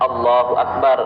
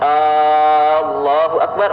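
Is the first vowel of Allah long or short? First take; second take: short; long. First: The first vowel of Allah is short. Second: The first vowel of Allah is drawn out. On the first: It states that God is the greatest. "yang tadinya Allahu akbar, Allah maha besar" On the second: It asks whether God is the greatest. "ketika kita memanjangkan Allahu akbar"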